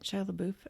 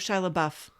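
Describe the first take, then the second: First: The last syllable does not rhyme with buff. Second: The last syllable rhymes with buff. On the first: The speaker calls it wrong. "Is that how you say it?" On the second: The speaker calls it right. "like in the buff"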